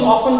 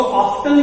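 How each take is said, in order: First: "often" said with a silent t, OFF-en; often without t. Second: "often" said with a clear t, OF-ten. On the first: Teacher demos "often" with the t dropped. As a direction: drop the t in "often". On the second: Teacher demos "often" with the t sounded. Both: Shown as a demonstration. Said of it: "इसका pronunciation दोनों ही है".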